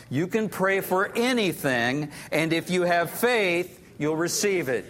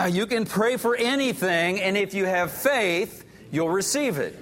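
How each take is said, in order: First: Congregation reading aloud together; many voices in unison. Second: Congregation reading it again together; many voices in unison. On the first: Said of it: "let's read it aloud together". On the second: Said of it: "Let's do it one more time". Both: Real, not acted.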